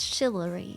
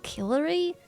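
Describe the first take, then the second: First: The word begins with a soft CH sound. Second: The word begins with a hard K sound. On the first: The speaker calls it right. "it's like a soft C H" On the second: The speaker calls it wrong. "like a hard K"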